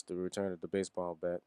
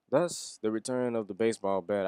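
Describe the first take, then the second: First: Said in the usual way. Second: Hyped announcement. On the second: Acted. Fan hyping the baseball bat's return, loud and excited.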